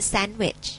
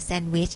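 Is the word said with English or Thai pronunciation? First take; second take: English; Thai. First: English pronunciation, with a foreign accent. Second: Thai pronunciation, with Thai tones. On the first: "ชาวต่างชาติเนาะใส่สำเนียงลงไปเล็กน้อยนะคะ" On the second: "เวลาเราพูดภาษาไทยเราก็กินแซนด์วิชใช่ไหม"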